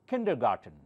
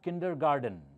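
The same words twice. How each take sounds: First: It is said with a T sound. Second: It is said with a D sound. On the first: The speaker calls it right. "Here there's T, not D" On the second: The speaker calls it wrong. "it's not kindergarten"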